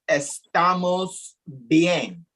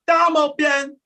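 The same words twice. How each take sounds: First: The s sounds are clearly pronounced. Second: The s sounds are dropped. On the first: "the song by [name] is" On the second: "when he sings it is ... He's not saying the S"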